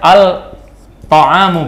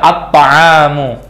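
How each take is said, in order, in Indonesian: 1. Bunyi L dilafalkan sebelum T. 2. L menyatu menjadi bunyi T yang ganda. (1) "begitu tulisannya" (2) "tapi nggak kebaca"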